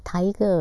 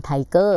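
First: Tiger stressed on its first syllable, TI-ger. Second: Tiger with a Thai-style stress on the second syllable, ti-GER. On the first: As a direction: say "tiger" with a strong first syllable and a light second. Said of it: "ลงเสียงหนักเสียงเบาที่อะไร". (พูด tiger ลงเสียงหนักพยางค์แรก พยางค์หลังเบา) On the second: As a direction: hit the last syllable of "tiger", as Thai learners do. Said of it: "จะลงเสียงหนักที่พยางค์ที่สอง". (พูด tiger แบบไทย ลงเสียงหนักพยางค์ที่สอง) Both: Shown as a demonstration.

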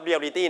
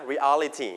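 First: Reality squeezed to "real-i-tee"; Thai loanword pronunciation. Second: Reality as re-AL-i-ty; English pronunciation. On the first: Teacher showing students what to avoid, Thai loanword pronunciation. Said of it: "not reality นะ". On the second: Teacher correcting students' confusion, English pronunciation. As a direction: stress the AL in four-syllable reality. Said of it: "reality นะครับ อย่าสับสนนะครับผม". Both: Shown as a demonstration.

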